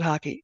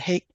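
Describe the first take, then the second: First: It is two syllables, sounding like 'hockey'. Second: It is one syllable, rhyming with 'make'. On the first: The speaker calls it right. "you're supposed to pronounce it hockey" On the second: The speaker calls it wrong. "I pronounce it hake brush"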